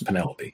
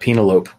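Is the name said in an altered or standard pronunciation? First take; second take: standard; altered. First: The name gets its usual standard pronunciation. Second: The name gets a deliberately altered pronunciation. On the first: The speaker calls it right. "I know it's Penelope" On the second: The speaker calls it wrong. "I'm going to say it that way just to be an asshole"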